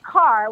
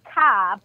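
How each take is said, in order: First: The final R sound is clearly pronounced. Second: The final R sound is dropped.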